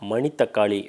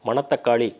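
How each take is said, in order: First: The second syllable has an 'i' vowel. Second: The second syllable has an 'a' vowel. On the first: The speaker calls it right. "அது சரியான ஒரு பேர் உச்சரிப்பாக இருக்கும்" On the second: The speaker calls it wrong. "மணத்தக்காளி அப்படின்னு சொல்கிறத விட"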